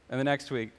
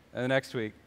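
Both takes have the same delivery.

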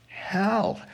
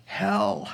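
First: Hell raised high and stressed hard; emphatic repeat. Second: Said in the usual way. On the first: Shown as a demonstration. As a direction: lift Hell up and hit it.

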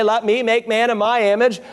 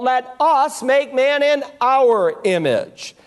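First: Said in the usual way. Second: "us" and "our" picked out against "me" and "my"; stress on "us" and "our". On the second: Shown as a demonstration. Preacher contrasting what God says in Genesis, stress on "us" and "our". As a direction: lean on "us" and "our" to mark the plural. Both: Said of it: "God doesn't say".

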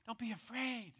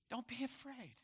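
First: Gentle reassurance. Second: Softer still, almost hushed; softer reassurance. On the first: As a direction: comfort them gently. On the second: Preacher repeats the comfort more softly to the listeners, hushed. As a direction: let it fall tenderly. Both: Acted. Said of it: "this is my word to you".

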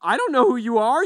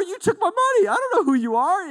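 First: High, loud, rising confrontation with who stressed; loud outraged rising question; indignant retort. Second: High, loud, fast rising accusation with don't stressed; hammed-up indignation at being robbed; loud shocked accusation; outraged victim. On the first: Retold or imitated. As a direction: demand to know who this stranger is. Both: Retold confrontation with a thief.

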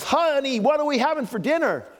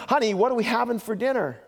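First: Much higher, louder "Honey" right at her ear; husband one inch from his wife, asking loudly; loud mock call. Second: Raised, higher call to a wife across the kitchen; husband calls from across the room to test her hearing. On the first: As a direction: overdo it, the last exasperated try. Husband right beside her, final try. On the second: Retold or imitated. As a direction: call out over the distance, mock husband.

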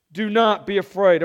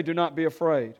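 First: Louder, emphatic proclamation of NOT; proclaimed. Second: Said in the usual way. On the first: Shown as a demonstration. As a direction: hit "not" hard as a command. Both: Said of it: "Everyone say".

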